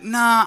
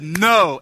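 First: It is said casually and hesitantly. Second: It is said firmly and emphatically.

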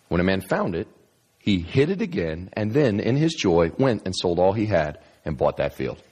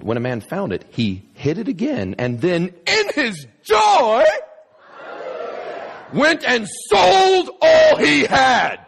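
First: It is read plainly, without extra emphasis. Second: It is read with heavy, exaggerated emphasis.

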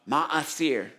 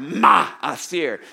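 First: The first sound is plain and smooth. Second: The first sound is harsh, raspy and throaty. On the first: "Can you say that with me?" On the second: "you got to get some phlegm in the ma"

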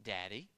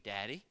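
No difference in how they are said.

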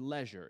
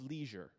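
First: It is said in a British accent. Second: It is said in an American accent.

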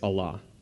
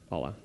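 First: It is said with an Arabic-style pronunciation. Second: It is said with an English-style pronunciation. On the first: This is how the believers themselves say it. "their name for God is Allah" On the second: This is how English speakers usually say it. "the way that we say it"

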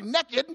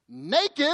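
First: It is said in a rural country accent. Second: It is said in a standard accent.

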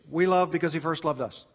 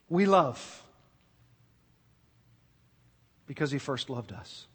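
First: It is read quickly. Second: It is read slowly.

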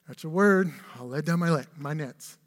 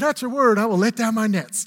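First: It is said in a reluctant, weary tone. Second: It is said in an eager, keen tone. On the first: The speaker does it unwillingly, expecting nothing. "Or maybe was it reluctance?" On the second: The speaker is glad to do what is asked. "Yeah, I can't wait"

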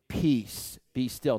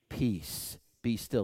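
First: It is said louder. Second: It is said at normal, quieter volume.

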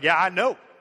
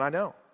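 First: It sounds mocking and condemning. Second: It sounds gentle and gracious.

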